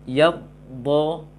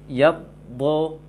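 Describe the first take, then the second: No difference in how they are said.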